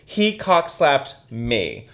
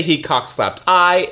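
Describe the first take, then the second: First: Said in the usual way. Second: Deliberately wrong "He cockslapped I." said slowly; slow mock-wrong example "He cockslapped I."; wrong version, slow. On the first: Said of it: "say this sentence without the other person". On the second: Shown as a demonstration. Teacher showing the wrong grammar slowly. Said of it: "It doesn't make sense".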